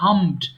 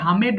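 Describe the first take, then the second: First: The ending adds no extra syllable. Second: The ending adds an extra syllable. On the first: The speaker calls it right. "এই জন্য আমি উচ্চারণগুলো দেখিয়ে দিচ্ছি" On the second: The speaker calls it wrong. "অনেকে ভুল করে হামেড বলে"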